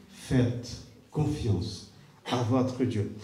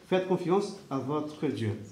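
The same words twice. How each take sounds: First: Very slow and soft, each word weighed; slow hushed solemn delivery. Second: Softer, quieter reassurance; tender sincere encouragement. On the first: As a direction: let it sink in slowly. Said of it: "repeated phrase, slowest take". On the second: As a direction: gently urge them to trust. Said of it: "repeated phrase, softer take". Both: Shown as a demonstration.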